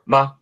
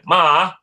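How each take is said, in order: First: The syllable is short, quick and toneless. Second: The syllable is held on a level pitch. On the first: It marks a question. "neutral tone ... It's really fast" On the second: It means mom. "the first tone of ma can mean mom"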